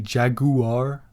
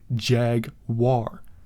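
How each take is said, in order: First: The 'gu' is a separate syllable. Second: The 'gu' makes a W sound. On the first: The speaker calls it wrong. "British people always say Jaguar" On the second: The speaker calls it right. "Portuguese people say jaguar. That's the correct way to say it"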